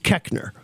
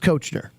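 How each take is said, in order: First: The first vowel is a short e sound. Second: The first vowel is an o sound. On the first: This is how the family says the name. "the correct mispronunciation of my last name" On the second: This is how the spelling suggests it. "phonetically, the way it looks"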